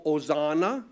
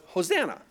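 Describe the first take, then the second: First: Hosanna with no H, starting on the O as oh-ZAH-na; silent H. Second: Hosanna with a clear breathy H, said as ho-ZAN-na; English Hosanna. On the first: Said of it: "the H is silent". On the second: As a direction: say Hosanna with a sounded H and a flat a. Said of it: "we call it Hosanna". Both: Shown as a demonstration.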